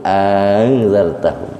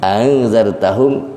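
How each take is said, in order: First: Long drawn first "a" in "angzartahum", falling close; tashil with madd. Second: Glided opening of "Angzartahum", ending on a rise; short first vowel sliding into "Angzartahum", tune left rising; tashil without madd. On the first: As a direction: hold the opening of "angzartahum", then glide on. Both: Shown as a demonstration. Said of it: "yang musahalah ada dua".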